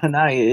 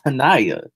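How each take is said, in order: First: Hanaya with weight on the first syllable, HAN-aya; wrong name stress. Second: Hanaya with NAI stressed, falling at the end; correct name stress. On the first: Repeating the co-host's mistake, Hanaya stressed on HAN. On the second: Correcting the co-host, Hanaya stressed firmly on NAI. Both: Shown as a demonstration. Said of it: "get the emphasis on the right words".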